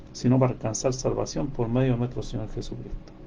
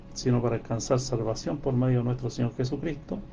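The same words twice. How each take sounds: Both takes have the same delivery.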